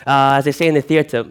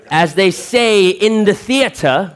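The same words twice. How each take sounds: First: Said in the usual way. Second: High, slow and grand like a stage actor; slow, lofty stage declamation; theatrical voice. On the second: Shown as a demonstration. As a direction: announce it like a hammy thespian. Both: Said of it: "'cause I'm an actor".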